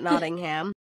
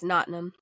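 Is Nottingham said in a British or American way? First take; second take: American; British. First: It is said with an American pronunciation. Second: It is said with a British pronunciation. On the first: The speaker calls it wrong. "Not Nottingham. ... If you're American, that's how you're going to pronounce it" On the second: The speaker calls it right. "And it's Nottingham"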